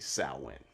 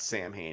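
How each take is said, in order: First: It is said like sow-in, without the m sound. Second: It is said as two syllables, Sam and Hain. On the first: The speaker calls it right. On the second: The speaker calls it wrong.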